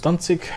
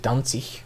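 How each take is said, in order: First: The final g is said as a hard g. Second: The final g is said like a 'ch' sound. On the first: "There goes Danzig" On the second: "some Germans nowadays would say Danzig. It's so dumb the way they pronounce the letter G"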